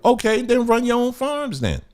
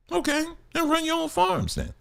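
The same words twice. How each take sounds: First: Said in the usual way. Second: Softer, higher echo. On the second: Shown as a demonstration.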